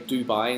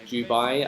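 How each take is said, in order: First: The word begins with a plain d sound. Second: The word begins with a j-like sound. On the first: This is how people here actually say it. "we we still say Dubai" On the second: This is the expected local sound pattern. "instead of Dubai"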